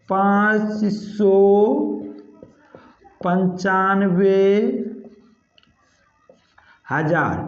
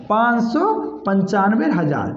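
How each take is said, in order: First: Slow, word by word with long pauses; slow dictation. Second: Said in the usual way. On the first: Shown as a demonstration. Teacher dictates the number to students while writing, slow. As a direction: spell out पाँच सौ पंचानवे हज़ार slowly while writing. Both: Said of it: "हज़ार यहीं पे लिख देते हैं".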